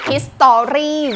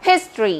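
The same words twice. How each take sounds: First: The second syllable has a full clear vowel. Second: The second syllable has a reduced schwa vowel. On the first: The speaker calls it wrong. "คำเหล่านี้ที่คนไทยอ่านเพี้ยนกันเยอะ" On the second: The speaker calls it right. "เราต้องมีเสียงชัวร์"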